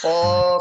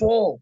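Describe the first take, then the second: First: The syllable is said without pouting the lips. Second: The syllable is said with pouted, rounded lips. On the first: The speaker calls it right. "tidak perlu sampai memonyongkan bibirnya" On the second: The speaker calls it wrong. "sambil monyong bibirnya"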